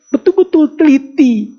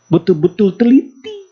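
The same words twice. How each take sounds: First: "betul-betul teliti" cried out much higher and louder, near breaking; anguished cry. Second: Rising plea on "betul-betul teliti", pitched up and pressed; pleading grandmother. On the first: The grandmother crying to Imam Malik about her five years' work, high anguished cry. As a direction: wail "betul-betul teliti" at the peak of her lament. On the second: The grandmother telling Imam Malik of her careful work, earnest rising plea. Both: Acted.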